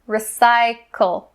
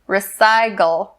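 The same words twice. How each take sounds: First: The middle consonant is a voiceless k sound. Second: The middle consonant is a voiced g sound. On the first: The speaker calls it right. "we're going to concentrate on the k, k sound" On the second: The speaker calls it wrong. "Do not change the k to g sound. Don't say recycle, recycle. That's not correct"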